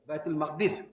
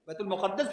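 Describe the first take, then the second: First: The last word has two syllables, no doubled d. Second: The last word has three syllables with a doubled d. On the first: "ये फसीह है" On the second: "बैतुल मुक़द्दस भी सही है"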